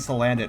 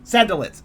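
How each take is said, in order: First: The name is said as sa-lan-dit. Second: The name is said as san-da-lit. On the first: The speaker calls it right. "It has made me stop saying Salandit wrong" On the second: The speaker calls it wrong. "I said sandalit because I want sand"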